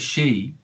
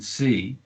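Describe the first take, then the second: First: The word begins with an sh sound. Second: The word begins with an s sound. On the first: The speaker calls it wrong. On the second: The speaker calls it right.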